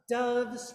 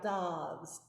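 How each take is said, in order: First: The vowel is a schwa with jaw raised. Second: The vowel is open, like in dog. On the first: The speaker calls it right. "It's that schwa, so the jaw's up" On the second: The speaker calls it wrong. "you were doing a little bit of like doves, dog"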